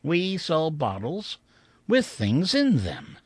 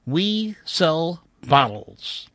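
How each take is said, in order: First: Slow, rising then falling; slow sign reading. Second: Slow, deliberate reading of the sign. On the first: Narrator repeating the sign to himself, slowly. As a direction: savor each word slowly. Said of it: "Just like that". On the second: Narrator spelling out a dusty shop sign, slowly. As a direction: read each word slowly. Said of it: "which read". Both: Shown as a demonstration.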